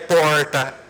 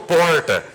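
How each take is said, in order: First: It is said with the local accent. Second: It is said with an interior Paraná accent. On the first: This is how people say it here. "Aqui é porta" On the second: This is how the speaker says it at home. "eu sou do interior do Paraná. Então eu falo porta"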